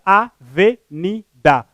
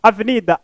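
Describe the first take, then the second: First: "avenida" very slowly, a-ve-ni-da with pauses; split into syllables. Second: Said in the usual way. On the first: Shown as a demonstration. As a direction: spell out "avenida" syllable by syllable for the class. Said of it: "porque apresenta quatro sílabas". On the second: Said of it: "uma palavra polissílaba".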